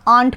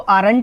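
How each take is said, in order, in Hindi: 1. यह एक अक्षर में बोला जाता है, aunt। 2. यह दो अक्षरों में बोला जाता है, ar-ent। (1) "आर नॉट को आंट पढ़ा जाता है" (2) "आप इसको आरंट नहीं पढ़ सकते हैं"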